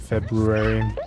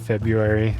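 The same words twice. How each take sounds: First: The first r sound is clearly pronounced. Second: The first r sound is left out. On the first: This is the form adopted deliberately later. The speaker calls it right. "I started forcing myself to say February" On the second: This is the habit learned in childhood. The speaker calls it wrong. "I always used to say February as a kid"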